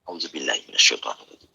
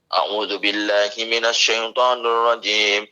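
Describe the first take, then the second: First: It is recited softly, almost whispered. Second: It is recited aloud.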